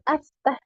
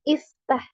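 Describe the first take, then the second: First: The word begins with an 'a' vowel. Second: The word begins with an 'i' vowel. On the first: The speaker calls it wrong. "bukan aftah" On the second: The speaker calls it right. "tapi iftah"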